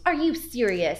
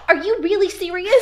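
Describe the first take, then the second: First: Louder, higher mock disbelief; incredulous. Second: Very high, loud, hammed-up disbelief; heightened incredulity. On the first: Boss hearing about the crying, acted incredulous. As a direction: react with amused, raised-voice disbelief. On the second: Boss asking once more about the crying, loudly acted incredulity. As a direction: blurt it out in exaggerated astonishment.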